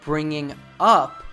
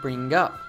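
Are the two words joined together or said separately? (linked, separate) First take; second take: separate; linked. First: The two words are said separately, without linking. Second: The two words run together as one linked unit. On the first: "instead of saying bringing up" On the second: "Oren says bringing up. Natives do this all the time"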